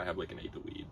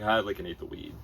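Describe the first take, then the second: First: It is said quietly and disappointedly. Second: It is said loudly and clearly.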